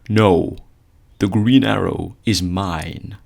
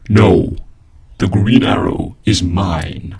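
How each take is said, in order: First: The voice sounds natural and unprocessed. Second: The voice sounds digitally distorted by an effect. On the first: "your voice should go from this" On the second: "to this. ... a really cool Prometheus voice effect"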